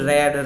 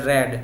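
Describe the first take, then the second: The two takes are said the same way.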